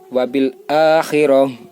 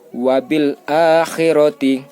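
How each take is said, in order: First: The final word ends on a consonant. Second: The final word ends with a full vowel. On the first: The reader stops at a verse mark. "Kalau di sini sudah dikasih tanda berhenti" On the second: The reading continues without a stop. "Misalkan kayak gini"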